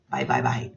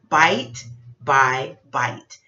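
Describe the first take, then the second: First: The phrase is said quickly and run together. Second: The phrase is said slowly and clearly. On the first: The name is hard to understand. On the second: The name is easy to understand.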